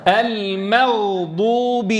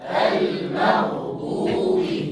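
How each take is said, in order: First: المغضوب slow, ghain held without bounce; teacher leading recitation; slow model. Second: المغضوب whispered very slowly; whispered drill. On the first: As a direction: drill المغضوب steadily. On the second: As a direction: breathe المغضوب softly. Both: Shown as a demonstration. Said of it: "قولوها معي".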